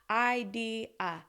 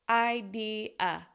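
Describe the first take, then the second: No difference in how they are said.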